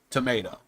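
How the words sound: The middle vowel is said the American way. "in America, more commonly you hear tomato"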